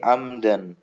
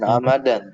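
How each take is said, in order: First: The m and d are joined with no vowel. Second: An extra vowel is heard between m and d. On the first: The speaker calls it right. "tapi amdan" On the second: The speaker calls it wrong. "Bukan amadan"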